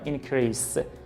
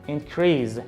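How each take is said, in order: First: The middle consonant is voiceless, like s. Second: The middle consonant is voiced, like z. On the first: The speaker calls it wrong. "نمیگم increase" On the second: The speaker calls it right. "میگم increase"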